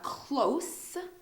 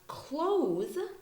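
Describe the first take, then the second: First: The word ends with a strong hissing s sound. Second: The word ends with a buzzing z sound. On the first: It means near. "has a very a lot of emphasis on the S sound" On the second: It means shut. "close is a verb"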